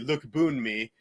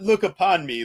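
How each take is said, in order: First: The middle sounds like 'boon' with one syllable. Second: The middle sounds like 'upon' with two syllables. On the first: The speaker calls it right. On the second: The speaker calls it wrong. "not look upon me"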